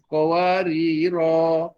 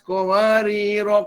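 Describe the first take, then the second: First: The final vowel is held long before a stop. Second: The final vowel is short, running into the next word. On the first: The reader stops at the end of the verse. "kita berhenti di ayat lima belas berhenti dengan dua harakat" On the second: The reader continues into the next verse without stopping. "Kalau diwasalkan maka dibaca tanpa mad"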